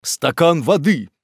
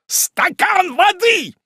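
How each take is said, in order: First: Measured call for help, only slightly raised; humane request. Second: Very high, drawn-out exasperated yell; irritable shout. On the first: Kindly Pickwick calls for help for the fainted aunt, concerned. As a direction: ask for it with concern, unhurried. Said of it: "сказал человеколюбивый мистер Пиквик". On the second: Hot-tempered Wardle echoes Pickwick's call, irritable shout. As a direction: bellow the demand, stretched and impatient. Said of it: "кричал раздражительный Уардаль". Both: A narrator's reading.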